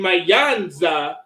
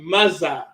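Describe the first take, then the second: First: It is said as two separate words. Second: It is said as one short contracted word. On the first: "Instead of saying mayan za" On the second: "now you could say maza"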